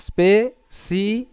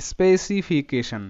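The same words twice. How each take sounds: First: স্পেসিফিকেশন in slow separate pieces, spe, si, fi, ke, shan; syllable by syllable. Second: স্পেসিফিকেশন slowly brought together into one word, falling at the end; syllables joined up. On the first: Teacher has students say স্পেসিফিকেশন along, slowly syllable by syllable. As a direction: stretch and separate every syllable of স্পেসিফিকেশন, pitch lifting on each. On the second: Teacher completes স্পেসিফিকেশন for students, slowly joining the syllables. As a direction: finish স্পেসিফিকেশন as a whole, measured word with a falling close.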